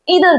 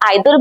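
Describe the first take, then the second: First: The first vowel sounds like 'ee'. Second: The first vowel sounds like 'eye'. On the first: "ईदर भी पढ़ते हो" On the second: "इसको आप आइदर भी पढ़ते हो"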